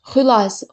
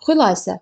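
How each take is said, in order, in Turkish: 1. Vurgu birinci hecede. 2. Vurgu birinci hecede.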